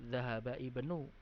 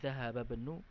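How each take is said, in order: First: The vowel at the start of 'ibnu' is pronounced. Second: The vowel at the start of 'ibnu' is dropped. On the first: The speaker calls it wrong. "Tidak perlu dzahaba ibnu" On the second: The speaker calls it right. "tapi dzahaba banu"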